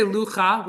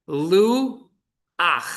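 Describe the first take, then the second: First: "lucha" run together as one word, cha at the end; teacher shows the reading to avoid; wrong lucha. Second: "lu ach" split in two beats, vowel a before the ch; teacher sounds out "lu" then "ach". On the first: Hebrew teacher to class, sounding out the wrong form. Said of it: "We don't say lucha". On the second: Hebrew teacher to class, slow split syllables. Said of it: "We don't say lucha, we say lu ach". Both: Shown as a demonstration.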